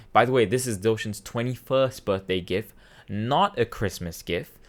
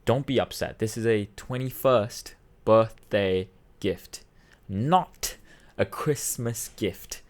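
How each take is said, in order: First: Matter-of-fact announcement to the family; a little firm, at normal speed; small announcement. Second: Slow, deliberate emphasis on "not a Christmas gift"; imitating dad, "not" set apart and drawn out; very clear announcement. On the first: Retold or imitated. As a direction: imitate dad briefly informing everyone. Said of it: "a small announcement". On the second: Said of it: "he makes it very clear".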